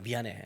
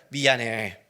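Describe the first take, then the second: First: Low, very soft grudging mumble; half-hearted apology. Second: Low, fuller-voiced careful apology; painstakingly earnest apology. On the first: Retold or imitated. Preacher replays his first apology by phone, half-hearted and soft. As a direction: toss off a reluctant apology under the breath. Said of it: "그게 미안하다는 거야?". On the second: Preacher apologizing again with all his heart, painstakingly earnest. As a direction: put exaggerated care into saying sorry. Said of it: "정성을 다해서".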